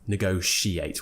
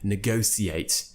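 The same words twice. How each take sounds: First: The middle consonant is a sh sound. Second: The middle consonant is an s sound. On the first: This is the modern, common way to say it. "with the sh sound" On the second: This is an old-fashioned, upper-class way to say it. "more of an old-fashioned, perhaps upper R P thing"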